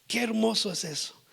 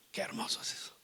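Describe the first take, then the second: First: Said in the usual way. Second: Soft awed whisper. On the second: Real, not acted. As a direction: breathe it out in wonder. Awed aside before repeating. (susurro asombrado)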